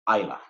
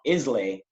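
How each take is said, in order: First: The name ends with an 'uh' sound. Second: The name ends with an 'ay' sound. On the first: The speaker calls it right. "it's actually pronounced Isla" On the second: The speaker calls it wrong. "it's not Islay"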